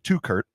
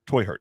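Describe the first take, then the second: First: The name sounds like 'two Kurt'. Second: The name sounds like 'toy hurt'. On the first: The speaker calls it wrong. "I said his name wrong" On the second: The speaker calls it right. "it's actually pronounced Toy Hurt"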